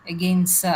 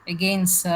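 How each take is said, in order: Both takes have the same delivery.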